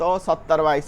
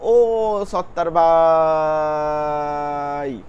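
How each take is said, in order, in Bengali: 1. ডাকটা ছোট, যেন কাছ থেকে ডাকা হচ্ছে। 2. ডাকটা লম্বা আর টানা।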